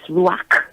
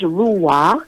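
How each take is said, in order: First: It ends with a rasping sound from the throat. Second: It ends softly, with no throaty final sound. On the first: This is the original Hebrew way of saying it. "In the Hebrew, it's Ruach with a cook" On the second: This is the Western way of saying it. "It is pronounced Ruah in the Western um, pronunciation"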